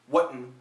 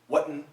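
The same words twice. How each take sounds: First: The T is replaced by a throat catch. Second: The same.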